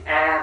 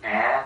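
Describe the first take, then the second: First: The syllable is said with a level tone. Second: The syllable is said with a dipping tone. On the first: The speaker calls it right. "chữ A mà đọc thành" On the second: The speaker calls it wrong. "hoặc là chữ Ả cũng không được"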